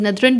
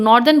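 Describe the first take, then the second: First: The first vowel is a short 'uh' sound. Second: The first vowel is a long 'or' sound. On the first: This is the dictionary pronunciation. "इसका अगर pronunciation देखते हैं सो डेट is नदरन" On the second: This is how people commonly say it. "आप उसको नॉर्दर्न बोलते हो"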